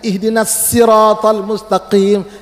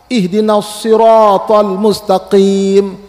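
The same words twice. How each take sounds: First: The s in sirat is a light plain sound. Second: The s in sirat is a heavy emphatic sound. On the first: The speaker calls it wrong. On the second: The speaker calls it right.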